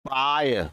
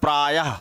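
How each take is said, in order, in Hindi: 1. यह शब्द स्वर पर सादा खत्म होता है। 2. यह शब्द साँस वाली h ध्वनि के साथ खत्म होता है। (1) "जैसे हमने लिखा प्राय" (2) "दो बिंदी लगा दी तो ये हो गया प्रायः। आह, आह की ध्वनि आती है"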